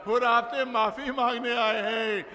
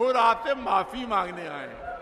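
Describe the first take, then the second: First: Raised, ringing call towards the tent. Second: Said in the usual way. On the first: Acted. Imam calls at tent door.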